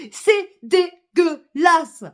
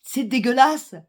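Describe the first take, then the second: First: DÉGUEULASSE slowly broken into syllables, pitched up; indignant emphasis. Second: Said in the usual way. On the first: Real, not acted. Angry woman denouncing leaders over war, indignant emphasis. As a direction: hammer out each syllable of dégueulasse.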